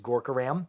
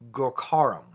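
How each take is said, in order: First: The stress is not on the second syllable. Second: The stress is on the second syllable. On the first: The speaker calls it wrong. "I have been mispronouncing" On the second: The speaker calls it right. "You you stress the Kos on the K H A"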